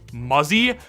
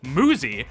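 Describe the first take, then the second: First: The first vowel is short, as in 'fuzzy'. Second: The first vowel is long, as in 'moo'. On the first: The speaker calls it wrong. "feels like it should be pronounced as Muzzy" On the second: The speaker calls it right. "it's actually pronounced as Muzi"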